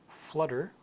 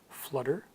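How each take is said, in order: Both takes have the same delivery.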